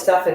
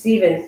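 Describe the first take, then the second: First: The middle consonant is not a V sound. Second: The middle consonant is a V sound. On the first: The speaker calls it wrong. "I kept on calling you Stefan" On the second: The speaker calls it right. "the P H is a V sound"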